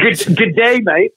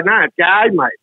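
First: Higher, stumbling fake-Aussie "good day"; American imitating Australian. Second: "g'day, mate" run together in Australian vowels; correct Aussie g'day. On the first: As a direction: botch the Australian greeting like an American. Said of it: "Americans find out you're Australians". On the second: Shown as a demonstration. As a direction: correct them with a quick, native "g'day, mate". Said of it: "And I say".

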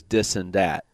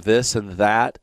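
First: Dis and dat with a hard d for th; "dis and dat" said a little slowly, d instead of th; Chicago mafia dis and dat. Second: Said in the usual way. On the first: Shown as a demonstration. Host demonstrating Chicago mafia speech, dis and dat with d. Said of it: "the Chicago Mafia uses dis and dat". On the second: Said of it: "pronounces the word this and that".

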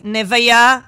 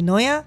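First: נוויה called out loud, stretched as ne-va-ya; imitated café announcer botching the name as נוויה; mispronounced name call. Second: Said in the usual way. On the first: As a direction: call out נוויה loudly with an extra syllable, like a café order. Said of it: "בארומה קראו את השם שלי". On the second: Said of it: "זה על השם שלי".

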